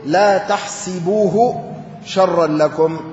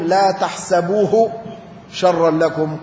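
First: تحسبوه with i after the s, tahsibuhu; تحسبوه بكسر السين; tahsibuhu reading. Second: تحسبوه with a after the s, tahsabuhu; تحسبوه بفتح السين; tahsabuhu reading. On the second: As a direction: give تحسبوه an open a, tahsabuh. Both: Shown as a demonstration. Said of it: "قرئ".

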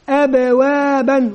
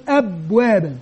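First: "أبوابا" drawn out syllable by syllable with long vowels; careful, sustained teacher's "أبوابا"; correct pronunciation. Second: "أبوابا" run short with a falling end; hurried, falling "أبوابا" as a mistake to avoid; wrong pronunciation. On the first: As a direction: model "أبوابا" slowly, a-b-waa-ban, held evenly. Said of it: "المهم أن ينطق ويقول أبوابا". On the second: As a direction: say "أبوابا" wrongly, quick and dropping. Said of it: "ولا يقل أبوابا". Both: Shown as a demonstration.

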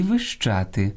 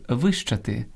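First: Вищати stressed on ЩА; stress on middle syllable. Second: Вищати stressed on ВИ; stress on first syllable. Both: Shown as a demonstration. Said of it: "наголос розрізняє значення слова".

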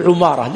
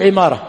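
First: عمارة starting with a short u, ʿumāra; عمارة as ʿu-MAA-ra; damma on ayn. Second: عمارة starting with a short i, ʿimāra; عمارة as ʿi-MAA-ra; kasra on ayn. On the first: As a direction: round the first vowel of عمارة to u. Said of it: "كلهم بضم العين". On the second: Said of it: "فهو بكسر ماذا". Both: Shown as a demonstration.

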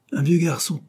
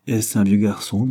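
First: High-pitched echo of the question; echoing exclamation. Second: Said in the usual way. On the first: A narrator's reading. Brother repeats his sister's words, high echoing exclamation. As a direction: throw the words back, pitched well up. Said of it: "répéta Francis".

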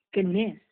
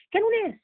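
First: كانوا low and quick, the weight falling on ناس; stress on people. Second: كانوا high and stressed, ناس trailing off; stress on were. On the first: Teacher repeating to her class that they were ناس, human. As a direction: lean on ناس with a falling close. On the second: Teacher insisting to her students that the companions كانوا ناس. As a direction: lift كانوا sharply high, then let ناس drop. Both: Shown as a demonstration.

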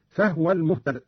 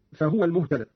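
First: فهو said "fahwa", no vowel after h; Qalun's silent ha vowel. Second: Said in the usual way. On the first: Shown as a demonstration. Teacher showing Qalun's reading, فهو as "fahwa". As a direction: close the ha of فهو straight into waw. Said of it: "قرأ قالون بإسكان الهاء هكذا". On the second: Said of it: "قرأ قالون بإسكان الهاء".

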